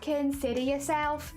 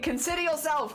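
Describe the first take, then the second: First: It is said in a Cockney accent. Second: It is said in a plain accent. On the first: "I need to hear it in like the Cockney accent" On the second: "just reading"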